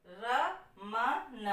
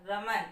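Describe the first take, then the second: First: रमन drawn out very slowly, each syllable with a clear अ sound; slow syllable demo. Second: Said in the usual way. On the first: Shown as a demonstration. Teacher stretching रमन for students, very slow. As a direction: spell out रमन slowly, letting the अ after र ring. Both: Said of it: "अ की आवाज आ रही है".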